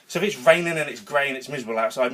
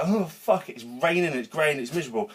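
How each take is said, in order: First: Said in the usual way. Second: Mock grumble. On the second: Coach imitating people moaning at rain, mock grumble. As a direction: grumble about the rain like a gloomy person. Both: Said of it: "most people go".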